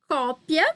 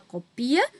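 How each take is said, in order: First: The stress is on the first syllable. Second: The stress falls on a later syllable. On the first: It is the noun. "é o substantivo, também vai ter acento" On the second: It is the verb. "vai ser o verbo"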